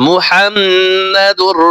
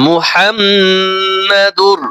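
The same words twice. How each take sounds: No difference in how they are said.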